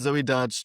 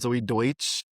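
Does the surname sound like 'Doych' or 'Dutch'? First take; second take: Dutch; Doych. First: The surname sounds like the word 'Dutch'. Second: The surname sounds like 'Doych', as in German. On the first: The speaker calls it right. "I'm pretty sure it's Zoe Dutch" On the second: The speaker calls it wrong. "not Zoe Deutsch"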